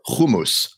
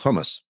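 First: It is said with the Zionist-community pronunciation. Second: It is said with the everyday English pronunciation.

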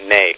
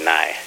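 First: The word is said with the Turkish pronunciation. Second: The word is said with a non-Turkish pronunciation. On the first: "that's the Turkish pronunciation of the instrument" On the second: "You say nai"

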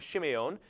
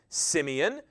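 First: The name begins with an SH sound. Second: The name begins with an S sound. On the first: This is the original ancient pronunciation. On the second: This is the modern English pronunciation.

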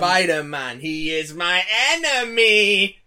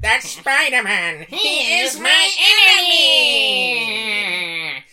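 First: It is said without a Skeletor voice. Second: It is said in a Skeletor voice.

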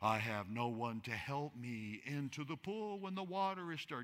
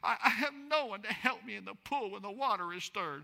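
First: It is said in a solemn, reverent tone. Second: It is said in a whiny, nasal, complaining tone. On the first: The man is speaking piously. The speaker calls it wrong. "Many of us read it like, kind of like in a holy sense" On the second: The man is complaining about his situation. The speaker calls it right. "you need to have that whiny, nasally, complaining sound"

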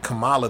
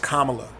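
First: The name does not begin like 'comma'. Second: The name begins like the word 'comma'. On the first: The speaker calls it wrong. "They pronounce it like Kamala, the Ugandan giant" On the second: The speaker calls it right. "He put comma, like the punctuation, hyphen la"

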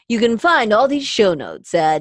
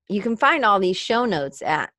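First: It is said in a put-on commercial announcer voice. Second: It is said in a plain conversational voice.

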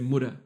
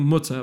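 First: The middle consonant sounds like a D. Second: The middle consonant is a clear T.

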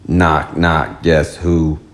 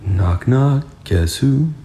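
First: It is said in a robotic voice. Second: It is said in a quiet, natural voice.

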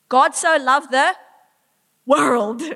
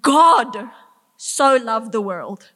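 First: The stress is on 'world'. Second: The stress is on 'God'. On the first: Everyone and anyone is loved. "Everyone, anyone and everyone made in his image, he loves" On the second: It is the maker of the universe who loved. "The maker of the universe loved what he created"

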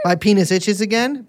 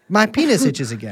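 First: The pitch rises at the end. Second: The pitch falls at the end. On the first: It is a question. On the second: It is a statement.

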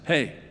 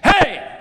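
First: The word is said short and quick. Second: The word is loud and drawn out.

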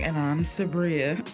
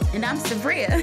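First: It is said in a flat, drab tone. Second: It is said in a flirty, lively tone.

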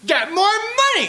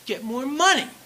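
First: It is said loudly and intensely. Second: It is said slowly and quietly.

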